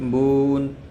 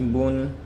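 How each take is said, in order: First: The syllable is slowly stretched and drawn out. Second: The syllable is said smoothly at an even pace. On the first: The speaker calls it wrong. "आराम से" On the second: The speaker calls it right. "हमें पढ़ना ऐसे है"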